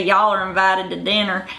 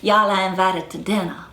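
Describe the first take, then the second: First: Rhotic mountain Southern accent, hard R; Appalachian Southern accent demo. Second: Non-rhotic plantation Southern accent, R dropped; non-rhotic Southern accent demo. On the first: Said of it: "So they're gonna say". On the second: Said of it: "So they'll say". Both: Shown as a demonstration.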